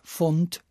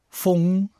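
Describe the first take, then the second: First: The word ends in an 'nd' sound. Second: The word ends in an 'ng' sound. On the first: This is the form it replaces. "statt Fund" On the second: This form was taken over from the Cologne area. "so Aussprachen wie Fung"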